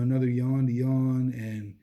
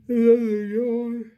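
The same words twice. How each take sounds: First: Said in the usual way. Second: Words stretched out by a real yawn, high and loud. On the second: Real, not acted. To his viewers, mid-sentence, caught by a real yawn. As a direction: yawn right through the words. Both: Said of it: "I'm so sorry for yawning".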